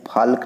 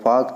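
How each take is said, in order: First: An l sound is heard before the k. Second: No l sound is heard before the k. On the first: The speaker calls it wrong. "फाल्क नहीं" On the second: The speaker calls it right. "इसको फॉक चौक पढ़ रहे हैं"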